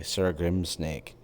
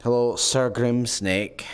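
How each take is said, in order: First: Savoring the name. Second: Relishing the name. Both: Pretend. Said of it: "That was fun to say".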